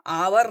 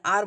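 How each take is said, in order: First: "आवर" said as two syllables, aa-var; wrong pronunciation. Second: "आर" as one long syllable, aar; correct pronunciation. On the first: Teacher shows students the reading to avoid, two-syllable "आवर". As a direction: sound out "आवर" with an audible v, louder. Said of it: "आवर नहीं बोलते हैं". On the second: Teacher shows students how it is read, one-syllable "आर". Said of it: "आर बोलते हैं". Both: Shown as a demonstration.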